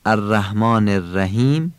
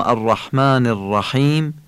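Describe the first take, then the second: First: "الرحمن الرحیم" with Persian h, no throat constriction; soft plain H. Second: "الرحمن الرحیم" with tight, raspy pharyngeal h; constricted throat H. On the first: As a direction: say الرحمن الرحیم with a light breath "h". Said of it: "این هی دو چشمه". («الرحمن الرحیم» با هِ دوچشم) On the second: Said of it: "این هی جیمیه". («الرحمن الرحیم» با حِ حلقی و گرفته) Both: Shown as a demonstration.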